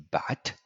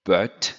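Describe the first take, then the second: First: BUT with an open, short "ah"-like vowel; slow, clear English BUT; BUT with open vowel, unrounded; correct English vowel. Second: BUT with a rounded "uh-er" vowel, like "beurt"; slow French-style vowel in BUT; French-learner BUT, vowel toward "eu"; French mispronunciation. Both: Shown as a demonstration. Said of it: "is usually mispronounced".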